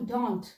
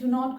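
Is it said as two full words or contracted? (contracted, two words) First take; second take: contracted; two words. First: It is said as one short contracted word. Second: It is said as two full separate words.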